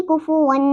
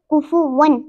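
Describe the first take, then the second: First: कुफुवन with a lingering nasal N; wrong ghunna. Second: कुफुवन with the N cut short; correct clear N. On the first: Teacher demonstrates the mistake, hummed कुफुवन. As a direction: hold and hum the last N of कुफुवन. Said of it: "ना कि कुफुवन". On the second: Teacher models no ghunna, clear कुफुवन. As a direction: finish कुफुवन cleanly, no nasal hum. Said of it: "हम उसको पढ़ेंगे कुफुवन". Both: Shown as a demonstration.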